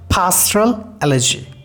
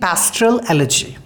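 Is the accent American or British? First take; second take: British; American. First: It is said in a British accent. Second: It is said in an American accent. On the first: "and in British" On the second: "pastoral elegy in American English"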